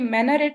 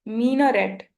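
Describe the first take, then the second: First: The first syllable sounds like 'my'. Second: The first syllable sounds like 'me'. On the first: The speaker calls it wrong. "ये मैनारेट नहीं है" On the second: The speaker calls it right. "you have to pronounce it like एम double ई"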